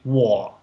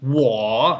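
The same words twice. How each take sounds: First: The tone stays low without rising again. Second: The tone dips low and then rises again. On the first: "if you always cut out the second half" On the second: "instead of saying"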